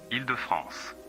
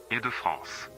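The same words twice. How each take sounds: The two takes are said the same way.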